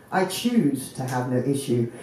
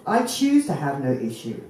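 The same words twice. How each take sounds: The two takes are said the same way.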